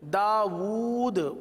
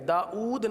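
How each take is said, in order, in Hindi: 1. दूसरा अक्षर w ध्वनि से शुरू होता है। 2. दूसरा अक्षर ग्लॉटल स्टॉप से शुरू होता है। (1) "वाव उल्टा पेश वू है" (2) "दाऊद नहीं है"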